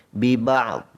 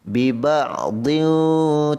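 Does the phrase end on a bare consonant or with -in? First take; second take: bare consonant; with -in. First: The phrase stops on a bare final consonant. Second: The phrase ends with an added -in sound. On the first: The reciter stops at this word. "satu waqaf" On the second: The reciter carries on into the next word. "Kalau sambung"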